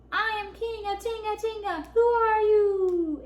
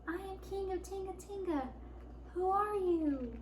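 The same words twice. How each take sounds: First: High, swelling booming answer; big echoing voice. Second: High, soft, timid little voice; tiny voice. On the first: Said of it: "answered a big voice". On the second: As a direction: squeak it out small and unsure. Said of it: "said Lion in a tiny voice". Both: A narrator's reading.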